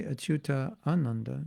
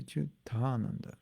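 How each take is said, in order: First: "Achyuta Ananda" as two separate words; separated-words demo. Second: "Achyutananda" run together with one long "taa"; joined-words demo. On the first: Showing what not to say, "Achyuta Ananda" unjoined. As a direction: keep both A's apart in "Achyuta Ananda". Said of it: "you don't say". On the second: Showing the combined name, "Achyutananda" as one word. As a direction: merge the A's in "Achyutananda", softer. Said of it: "you say Achyutananda". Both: Shown as a demonstration.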